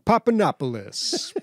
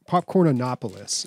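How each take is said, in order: First: The name begins with the sounds papa. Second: The name begins with the word popcorn. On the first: The speaker calls it wrong. "he's not even saying it right" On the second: The speaker calls it right. "this stuff is called"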